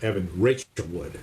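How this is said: The stress is on Rachel.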